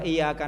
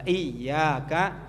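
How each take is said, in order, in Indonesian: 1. Bunyi y-nya pendek, tidak rangkap. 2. Bunyi y-nya dibaca panjang dan rangkap. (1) "itu salah" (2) "Kalau bacanya dipakai tasydid"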